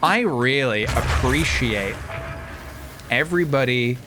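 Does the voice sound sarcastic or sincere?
sarcastic. It is said in a sarcastic tone. The thanks are not meant.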